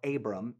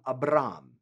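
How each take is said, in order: First: The R sound is not rolled. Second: The R sound is rolled. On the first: This is an easier form for those who cannot roll. "if you can't roll your R's" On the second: This is how people said it in ancient times. "as they would say it then"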